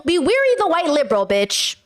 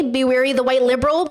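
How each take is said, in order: First: WARY hit higher in pitch; emphatic repeat. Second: Said in the usual way. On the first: Retold or imitated. Streamer driving a quote home to viewers, emphatic on "wary".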